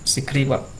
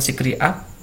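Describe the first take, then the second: First: The last two words are linked into one. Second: The last two words are said separately. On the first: The speaker calls it right. "Karena ini up gitu digabungkan sederhana wap" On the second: The speaker calls it wrong. "Jadi bukan sikri up"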